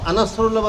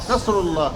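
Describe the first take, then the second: First: An extra a vowel comes before the n. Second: The word starts directly with the n sound. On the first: The speaker calls it wrong. "আনাসরুল্লাহ বলা যাবে না।" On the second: The speaker calls it right.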